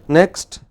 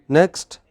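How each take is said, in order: The two takes are said the same way.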